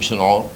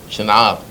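First: The second syllable has an o vowel. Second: The second syllable has an a vowel. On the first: The speaker calls it wrong. "לא אומרים שנעור" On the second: The speaker calls it right. "שנער זה חפתו"

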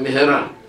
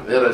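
First: The middle h sound is clearly pronounced. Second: The middle h sound is dropped. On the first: The prayer word means quickly. The speaker calls it right. "מהרה בהה, זה מהרה" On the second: The prayer word turns into something like a curse. The speaker calls it wrong. "מהרה זה כללה"

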